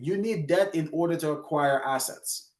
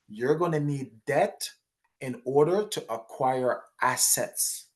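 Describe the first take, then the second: First: It is said at a quicker pace. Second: It is said at a slower pace.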